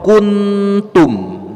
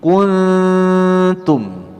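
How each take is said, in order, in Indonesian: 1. Bunyi n diucapkan dengan jelas dan tegas. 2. Bunyi n kabur dan sengau. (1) "ini idhar, bukan ikhfa" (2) "seperti itu. Jadi bunyi nunnya itu samar samar"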